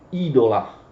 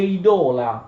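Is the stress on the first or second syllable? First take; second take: first; second. First: The stress is on the first syllable. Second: The stress is on the second syllable. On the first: The speaker calls it wrong. "non pronunciate idolum oppure idola, come fanno moltissimi" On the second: The speaker calls it right. "Quella O è lunga nella penultima sillaba"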